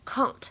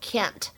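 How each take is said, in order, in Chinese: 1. 这是用英式发音说的。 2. 这是用美式发音说的。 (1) "在英式英语当中呢，它读作can't" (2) "而在美式英语当中呢，读作can't"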